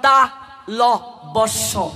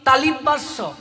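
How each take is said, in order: First: তা ল বস্য broken slowly into separate parts; teacher's careful তা ল বস্য; corrected pronunciation. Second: তালিম বাস্য run together with an i in the middle; everyday wrong তালিম বাস্য; common mispronunciation. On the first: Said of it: "এটা উচ্চারণ". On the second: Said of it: "যেমন আমরা বলি". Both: Shown as a demonstration.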